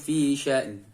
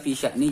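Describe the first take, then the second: First: The word ends on a nasal n with no vowel. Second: The word ends with a short i vowel. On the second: "Seharusnya namanya"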